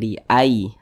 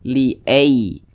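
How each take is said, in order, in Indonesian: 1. Vokalnya adalah geluncuran 'ai' yang dilunakkan. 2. Vokalnya condong ke bunyi 'e'. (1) "tapi dia mudah dilunakkan" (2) "Jangan sampai condong ke e, jangan dibaca"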